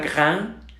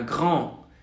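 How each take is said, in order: First: The vowel is a plain oral a. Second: The vowel is nasal, close to an open o. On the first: The speaker calls it wrong. "No es una gran" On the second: The speaker calls it right. "es una grand"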